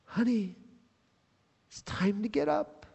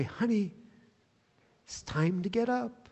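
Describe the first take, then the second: First: Softer, higher tender wake-up; Jesus gently waking the dead girl, soft and tender; tender, hushed call. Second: Soft, tender morning wake-up; whisper-close loving nudge to get up; a father gently waking his little girl; gentle father waking daughter. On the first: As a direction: softly call her back to life. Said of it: "he takes her cold and lifeless hand". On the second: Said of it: "when he walks into his little girl's bedroom". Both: Retold or imitated.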